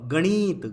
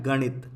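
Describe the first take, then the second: First: गणित said as ganeet, long ee; wrong long vowel. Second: गणित with a brief i in णि; correct short vowel. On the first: Teacher reads out the misspelling, long vowel. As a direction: stretch the णि in गणित to णीई. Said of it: "गणित नहीं होता". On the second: Teacher gives the right word, short vowel. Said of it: "क्या होता है?". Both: Shown as a demonstration.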